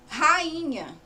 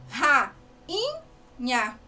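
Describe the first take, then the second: First: Said in the usual way. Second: "rainha" drawn out slowly as ra, in, nha; syllable by syllable. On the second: Shown as a demonstration. Teacher showing pupils the hiato in rainha, syllable by syllable. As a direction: break "rainha" into three separate syllables, pausing between. Word split to show syllables.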